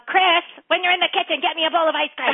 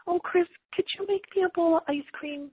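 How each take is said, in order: First: High, loud ordering; bossy demand. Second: Imitating mom's high, sweet request; sweet asking. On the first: Shown as a demonstration. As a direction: call it out as a sharp order. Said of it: "it'd be different if your mom was going". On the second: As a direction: coax him in a lilting, higher voice. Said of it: "Did you hear the way your voice just said that?".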